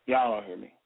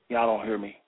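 Both takes have the same delivery.

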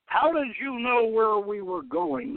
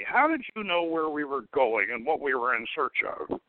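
First: Sharp, higher, insistent question; demanding. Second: Said in the usual way. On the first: A narrator's reading. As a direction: demand an answer from the captive. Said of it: "the purple dragon demanded".

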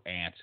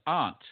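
First: "aunt" said just like the insect "ant"; flat-a pronunciation. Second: "aunt" with a broad ah, like "ahnt"; broad-vowel pronunciation. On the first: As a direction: say "aunt" to rhyme with pant. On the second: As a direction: say "aunt" to rhyme with font. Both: Shown as a demonstration. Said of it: "or aunt, whatever".

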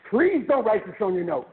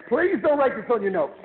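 First: Said in the usual way. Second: Please pressed harder, a bit higher and louder; emphatic repeat. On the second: Shown as a demonstration. Insisting the audience keep it off their notes, emphatic. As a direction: lean on Please the second time.

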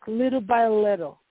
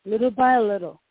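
The two takes are said the same way.

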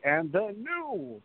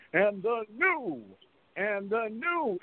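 First: Slow, drawn-out and the new; ring announcer call. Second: Drawn-out high announcer call; excited ring announcer. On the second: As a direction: stretch out and the new like an announcer. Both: Retold or imitated. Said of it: "everybody was so excited to say".

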